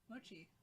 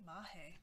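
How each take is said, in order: First: Said in the usual way. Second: "mahe", with an h sound in place of the ch; odd pronunciation. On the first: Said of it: "How to pronounce mochi?". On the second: Retold or imitated. Streamer puzzled at who pronounces it that way, odd pronunciation "mahe". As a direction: imitate an unfamiliar pronunciation, saying "mahe". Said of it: "Who pronounces it mo".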